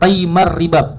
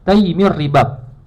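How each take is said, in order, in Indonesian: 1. Vokal setelah Taim adalah bunyi a. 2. Vokal setelah Taim adalah bunyi i.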